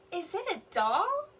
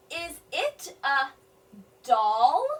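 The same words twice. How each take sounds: First: Smooth, higher rising question; fluent question. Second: Slow, "doll" loud and rising; sounded-out question. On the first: Teacher rereading the question fluently, rising. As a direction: ask it smoothly, lifting "doll". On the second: Teacher sounding out a question for children, rising. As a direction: stretch then lift "doll". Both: Shown as a demonstration. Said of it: "she's asking a question".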